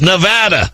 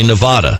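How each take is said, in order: First: The middle vowel sounds like the word 'add'. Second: The middle vowel does not sound like 'add'. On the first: The speaker calls it right. "It's Nevada" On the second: The speaker calls it wrong. "don't say Nevada"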